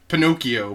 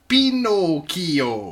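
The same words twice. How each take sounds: First: The name is said with an English pronunciation. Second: The name is said with an Italian pronunciation.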